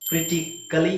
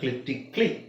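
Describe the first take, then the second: First: The vowel before the final 'ly' is sounded. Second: The vowel before the final 'ly' is dropped.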